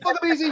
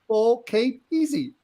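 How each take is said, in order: First: The words run together, sounding like 'fuck I'm'. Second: The words are said clearly, each sound distinct.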